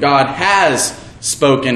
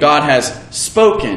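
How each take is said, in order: First: The stress falls on the word has. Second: The stress falls on the word spoken.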